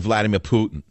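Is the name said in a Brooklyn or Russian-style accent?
Brooklyn. The name is said with a Brooklyn accent. This is not how the quoted speaker said it. "He didn't say Vladimir Putin. He's not from Brooklyn"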